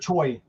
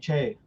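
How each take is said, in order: First: The name is said in the American way. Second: The name is said in the Korean way. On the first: The speaker calls it wrong. "in America you always hear Choi" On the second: The speaker calls it right. "when it should be Che"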